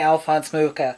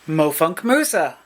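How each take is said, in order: First: The name is said clearly as Alphonse Mucha. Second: The name is garbled, sounding like Mofunk Musa. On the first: It is the usual way people say the name. The speaker calls it right. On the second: It imitates a family member's mispronunciation. The speaker calls it wrong.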